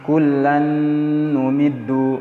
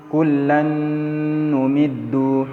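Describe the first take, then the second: Both takes have the same delivery.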